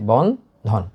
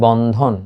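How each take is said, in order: First: Bandhan broken in two, বন, then ধন; two separate beats in বন্ধন: বন and ধন; split into syllables. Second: Said in the usual way. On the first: Shown as a demonstration. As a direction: say Bandhan syllable by syllable, with a break after বন. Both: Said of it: "দুইটা syllable আমি বলেছি".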